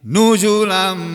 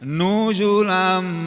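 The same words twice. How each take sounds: First: The first vowel is kept short. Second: The first vowel is drawn out long. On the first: The speaker calls it right. "tapi nuzulam" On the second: The speaker calls it wrong.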